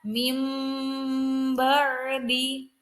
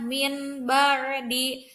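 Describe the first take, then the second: First: The n sound is changed into an m. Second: The n sound is said clearly before b. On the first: The speaker calls it right. "digantikan nun mati dan ba-nya menjadi mim" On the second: The speaker calls it wrong. "tidak dibaca jelas seperti izhar"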